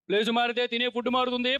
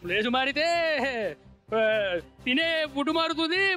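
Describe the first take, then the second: First: It is delivered like a dramatic film dialogue. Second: It is delivered like a live stage speech. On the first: It imitates him acting in a movie. "ఆయన స్టైల్లో చెప్పగలవా సినిమాలో చెప్పినట్టు?" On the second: It imitates him speaking at a live event. "అదే ఆయన on stage చెప్తే ఎలా ఉంటుందో చూస్తాం"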